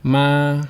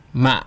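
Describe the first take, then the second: First: "Ma" held long on a level pitch; long, unwavering "Ma" like a note; flat tone. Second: "ma" short, dropping and cut off; brief "ma" with an abrupt stop; dot tone. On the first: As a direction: sustain "Ma" evenly to the end. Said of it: "with the flat tone first". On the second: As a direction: close the throat quickly on "ma". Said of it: "and then the dot". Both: Shown as a demonstration.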